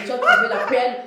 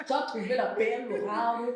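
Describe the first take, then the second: First: Loud, amused congratulation; laughing exclamation. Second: Put-on Cameroonian French accent. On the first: Real, not acted. Host congratulating guest on her husband, laughing and loud. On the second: Shown as a demonstration. Host congratulating guest on her husband in a Cameroonian accent. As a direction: playfully take on a Cameroonian accent. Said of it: "je prends l'accent camerounais".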